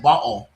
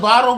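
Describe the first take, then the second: First: "bottle" with the t swallowed even harder, mimicking; mock his "bottle" with a stronger glottal stop; "bottle" pushed further into a mock British sound; her bottle. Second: "bottle" with a clipped, swallowed t, as he said it; "bottle" said the British way with a glottal stop; his bottle. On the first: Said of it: "but it was like bottle". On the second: Retold or imitated. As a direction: imitate his "bottle" with the t dropped. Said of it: "he said bottle".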